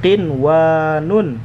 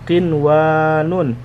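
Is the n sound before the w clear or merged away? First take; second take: clear; clear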